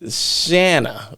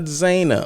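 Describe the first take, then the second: First: The name begins with a 'sh' sound. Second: The name begins with a plain 'z' sound. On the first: The speaker calls it right. "It's actually Shanna" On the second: The speaker calls it wrong. "It's not Zana"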